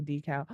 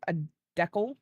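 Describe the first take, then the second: First: Said in the usual way. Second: "decal" said like "deckle", stress on the first syllable with a short e; teasing "decal" as "DEK-ul"; jokey mispronunciation. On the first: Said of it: "I know it's a decal". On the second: Shown as a demonstration. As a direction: deliberately say "decal" as "DEK-ul" to annoy. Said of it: "I say it like that just to annoy people".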